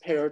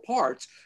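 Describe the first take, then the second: First: The name is said the Estonian way. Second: The name is said the common English way. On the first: The speaker calls it right. "but it's pronounced Pärt. He's Estonian" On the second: The speaker calls it wrong. "most people mispronounce it and say Arvo Part"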